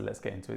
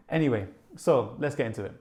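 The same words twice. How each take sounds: First: Quiet, low self-mocking echo; dry mock of a YouTuber catchphrase; self-mocking YouTuber line. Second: Said in the usual way. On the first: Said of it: "This is what every YouTuber says". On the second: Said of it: "I don't know why I said".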